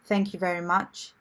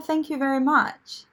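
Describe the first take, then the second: First: It sounds clipped, firm and punched out. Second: It sounds soft, warm and drawn out. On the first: The conversation is over. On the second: Genuine gratitude.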